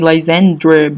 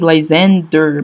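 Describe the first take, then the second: First: The name ends with an 'r' before the vowel. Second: The name ends with a plain 'der' sound. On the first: "sometimes I say Lysandre because it's like D R E" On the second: "I say Lysander"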